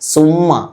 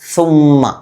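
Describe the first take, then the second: First: It begins with a hissing s sound. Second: It begins with a th sound, tongue on teeth. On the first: The speaker calls it wrong. "സീൻ ഉച്ചരിക്കുന്നത് പോലെ സ സുമ്മ" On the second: The speaker calls it right. "നാവ് മേലെ മുൻപല്ലിൽ വെച്ച് സുമ്മ"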